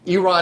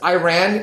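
First: The first syllable sounds like 'ee', not 'eye'. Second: The first syllable sounds like 'eye', as in 'I ran'. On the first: It names the country. The speaker calls it right. "Iran is a country" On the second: It names a song, not the country. The speaker calls it wrong. "Iran is an 80s song by Flock of Seagulls"

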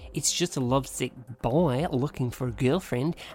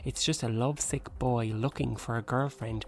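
First: It is said in a put-on Australian accent. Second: It is said in the speaker's normal accent.

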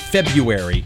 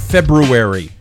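First: The first r sound is dropped. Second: The first r sound is clearly pronounced. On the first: The speaker calls it wrong. "not February" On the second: The speaker calls it right. "Notice I said February"

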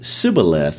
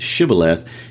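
First: The word begins with a plain s sound. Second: The word begins with a sh sound. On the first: The speaker comes from the losing tribe. "Ephraimites couldn't pronounce the SH sound, so they would pronounce it Sibboleth" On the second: The speaker comes from the winning tribe. "instead of Shibboleth"

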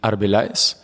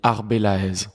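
First: The name is said the Spanish way. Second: The name is said the French way.

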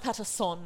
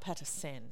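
First: The last syllable sounds like 'son'. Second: The last syllable sounds like 'sen'. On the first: The speaker calls it right. "And it's Patterson" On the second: The speaker calls it wrong. "not Patterson"

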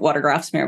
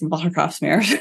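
First: The name is said with an American accent. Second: The name is said with a Dutch accent.

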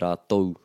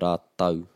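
First: The word ends with an 'ou' sound. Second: The word ends with an 'au' sound. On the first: This is how west coast speakers say it. "The west coast, you're going to hear rātou" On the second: This is how east coast speakers say it. "if you're on the east coast of the North Island, you'll hear rātau"

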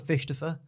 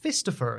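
First: The middle consonant is a 'sh' sound. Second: The middle consonant is an 's' sound. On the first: The speaker calls it right. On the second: The speaker calls it wrong.

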